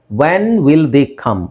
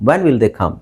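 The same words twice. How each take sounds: First: Very slow, each word separated; emphatic model question. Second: Said in the usual way. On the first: Shown as a demonstration. Teacher models the corrected question. (ನಿಧಾನವಾಗಿ, ಪ್ರತಿ ಪದ ಬಿಡಿಸಿ ಹೇಳುವುದು)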